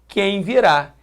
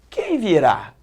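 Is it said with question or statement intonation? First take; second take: statement; question. First: It is said with flat statement intonation. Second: It is said with questioning intonation.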